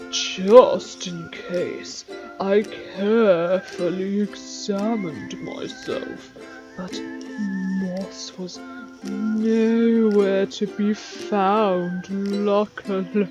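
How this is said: It is read in a put-on, different voice.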